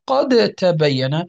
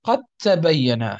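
First: قد تبين with the dal sounded apart, very slow; original unassimilated form. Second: قد تبين read with the dal merged into the ta, slow; assimilated reading. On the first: Teacher shows students the original form, very slow. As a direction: stretch قد تبين, dal pronounced separately. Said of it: "وهي أصلها". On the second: Teacher shows students how to merge the dal, slow. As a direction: blend قد تبين as "qat-tabayyan". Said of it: "أدغمنا تلك الدال في التاء". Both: Shown as a demonstration.

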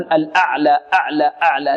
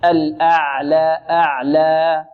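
First: الأعلى with the ain said thick and heavy; heavy ain error. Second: الأعلى with thin hamza and a light, medium ain. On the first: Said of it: "لا نقول". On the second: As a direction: keep الأعلى thin and slow. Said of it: "الهمزة مرقة والعين مرقة". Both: Shown as a demonstration.

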